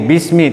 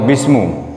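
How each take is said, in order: First: The word ends with an i vowel. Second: The word ends with a u vowel. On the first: The speaker calls it right. "Jadi bismi" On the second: The speaker calls it wrong. "atau bismu, enggak"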